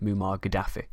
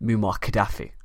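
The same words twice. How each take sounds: First: It is said with the popular media pronunciation. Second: It is said with the academic pronunciation. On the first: "as he is referred to more in the media" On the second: "I will go with academic rather than popular pronunciations"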